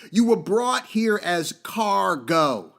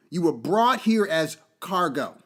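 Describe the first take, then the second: First: Slowed, every word weighted; slow emphasis. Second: Said in the usual way. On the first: Shown as a demonstration. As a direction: let it sink in slowly. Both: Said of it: "Think about that".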